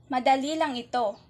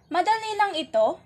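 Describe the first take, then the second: First: It is said as a plain statement. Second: It is said as a question. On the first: It simply states that this is easy. "Ito ay nagtatapos ng tuldok at ito ay nagpapahayag" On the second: It asks whether this is easy. "ito ay nagtatanong"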